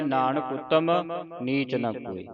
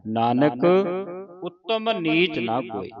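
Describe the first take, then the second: First: Nanak ਉਤਮ run together with no pause after Nanak; wrong phrasing. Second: A clear pause after Nanak, then ਉਤਮ ਨੀਚ ਨਾ ਕੋਏ; pause after Nanak. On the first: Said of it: "ਕਈ ਸੰਗਤਾਂ ਪੜ੍ਹ ਜਾਂਦੀਆਂ ... ਇਸ ਤਰ੍ਹਾਂ ਪੜ੍ਹਦੇ". (ਨਾਨਕ ਉਤਮ ਇਕੱਠੇ, ਗਲਤ ਵਿਸਰਾਮ) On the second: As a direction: stop on Nanak before going on. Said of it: "ਵਿਸਰਾਮ ਨਾਨਕ ਤੇ ਲੱਗਣਾ ਹੈ". (ਨਾਨਕ ਤੇ ਵਿਸਰਾਮ ਲਾ ਕੇ ਪੜ੍ਹੋ) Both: Shown as a demonstration.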